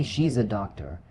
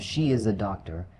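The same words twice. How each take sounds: First: "she's" as one syllable; fluent short form "she's"; contracted. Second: "she is" said as two full words; full form "she is", no contraction; uncontracted. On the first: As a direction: merge "she is" into "she's" in "she's a doctor". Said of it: "Using contractions". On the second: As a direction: keep "she" and "is" separate in "she is a doctor". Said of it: "or instead of". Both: Shown as a demonstration.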